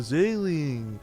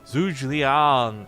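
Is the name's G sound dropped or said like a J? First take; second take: dropped; like J. First: The name is said lazily with sounds dropped. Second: The G in the name sounds like a J. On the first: "Make sure you say Zergling, but like lazy" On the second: "put emphasis on the G, make it sound like a J"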